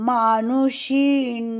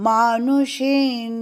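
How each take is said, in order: Both takes have the same delivery.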